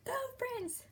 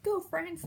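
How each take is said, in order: First: Soft whispered "Go France!"; whispered cheer. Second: A light voiced "Go France!"; mild cheer. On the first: Retold or imitated. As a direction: cheer France under your breath. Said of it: "and I'm". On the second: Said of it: "I was".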